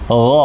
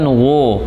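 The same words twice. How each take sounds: First: It is moderately thick with the lip raised slightly. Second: It is very thick with the lips pushed out. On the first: The speaker calls it right. "terangkat sedikit saja bibir bawahnya" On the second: The speaker calls it wrong. "bukan gha... nggak boleh sampai manyun"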